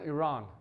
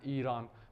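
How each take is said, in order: First: It is said with a foreign accent. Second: It is said with a native Persian accent.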